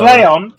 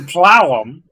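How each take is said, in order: First: The first syllable sounds like 'play'. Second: The first syllable sounds like 'plow'. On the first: The speaker calls it right. "apparently pronounced Playon" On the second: The speaker calls it wrong. "not Plowon"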